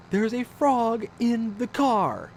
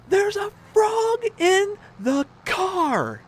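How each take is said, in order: First: High, slow, insistent delivery; mock-grave, drawn-out alarm; worked-up wife. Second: Very high, loud, drawn-out shriek; over-the-top slow-motion wail; hysterical wife. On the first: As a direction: spell out the emergency word by word. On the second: Retold or imitated. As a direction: scream each word slowly as if in mortal danger. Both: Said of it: "I'm making her sound like she's, like, this crazy person".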